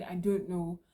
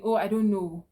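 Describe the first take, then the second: First: Said in the usual way. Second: A careless, louder "Oh, I don't know" that shrugs the customer off; dismissive brush-off. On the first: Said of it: "Instead of saying". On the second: Shown as a demonstration. Clerk brushing off an upset customer's question, dismissive. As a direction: toss "Oh, I don't know" away like it's not your problem. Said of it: "replying their questions and saying".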